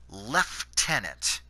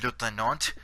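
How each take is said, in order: First: It is pronounced in a Canadian style. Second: It is pronounced in a French style. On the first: "us Canadians pronounce it lieutenant" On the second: "the French pronounce it uh"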